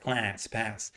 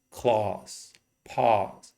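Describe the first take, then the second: First: "class, pass" with a Californian open front A; drawn-out Californian vowel in "class, pass"; Californian accent. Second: "claws, paws" for class and pass, British broad A; British pronunciation with a long "ah"; British accent. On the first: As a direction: model Californian English, vowel as in "cat". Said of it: "I teach Californian English". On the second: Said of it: "that's very British". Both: Shown as a demonstration.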